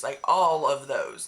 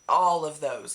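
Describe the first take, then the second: First: All of those slower, stress on all. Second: Said in the usual way. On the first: Shown as a demonstration. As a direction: lean on the word all, slowly.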